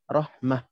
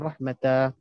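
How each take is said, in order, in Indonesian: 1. Kata ini diakhiri bunyi 'mah' yang pendek. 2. Kata ini diakhiri bunyi 'matah' yang lebih panjang. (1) "kita berhenti macam biasa je. Matikan je" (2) "Kita tak baca dengan rahmatah"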